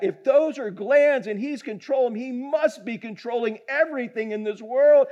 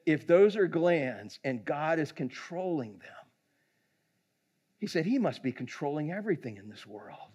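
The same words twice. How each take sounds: First: Higher, emphatic preaching delivery; fervent repeat. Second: Retold quiet realisation. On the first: Retold or imitated. Preacher relaying the doctor's conclusion, fervent. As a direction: drive the realisation home with rising conviction. Speaker repeats the quote with fervour. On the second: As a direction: let the realisation land gently.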